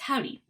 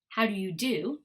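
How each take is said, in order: First: The words are squeezed into two syllables. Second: Each word is said fully and separately. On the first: "how it actually sounds" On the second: "what it looks like and what you would see written"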